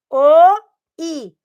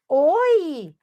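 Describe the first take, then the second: First: The two vowels are said apart with a gap. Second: The two vowels glide together without a gap. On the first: "agora bem juntinho" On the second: "Mais rápido"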